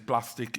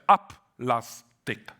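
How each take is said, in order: First: The word begins directly with the pl cluster. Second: An extra a vowel comes before the pl cluster. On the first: "There is no problem whatsoever to say plastic" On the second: "In Hebrew, we would have said up lastic"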